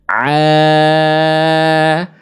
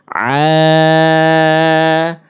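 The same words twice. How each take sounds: No difference in how they are said.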